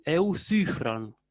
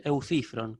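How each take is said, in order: First: "Eucifron" slowly, with ü in the middle syllable; rounded upsilon. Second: "eucifron" with a plain "ee" in the middle, lower and falling; easier version with I. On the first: Teacher modelling the harder version, "Eucifron" with rounded ü. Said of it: "si no le sale ese U". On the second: Teacher offering students an easier way, "eucifron" with plain I. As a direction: say "eucifron" simply, "i" unrounded. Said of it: "si quieren más fácil". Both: Shown as a demonstration.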